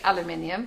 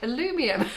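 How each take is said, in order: First: It is said the British way. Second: It is said the American way. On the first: "we say aluminium" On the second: "they say aluminium"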